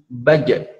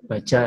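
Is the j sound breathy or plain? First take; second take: plain; breathy. First: The j is voiced with no puff of breath. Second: The j is released with a puff of breath. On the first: The speaker calls it right. "sifatnya adalah tadi jahar ya, tidak keluar nafas" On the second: The speaker calls it wrong. "Contoh dialek Jawa, dia kan selalu menghembuskan nafas"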